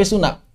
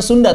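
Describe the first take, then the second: First: "Suna" with a nasal n replacing nd; dropped D. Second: Said in the usual way. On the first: Shown as a demonstration. Teacher correcting Sunda to the local form, "Suna" with no d. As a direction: lose the d in "Suna". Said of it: "Bukan Sunda, tapi Suna". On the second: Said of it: "Bukan Sunda".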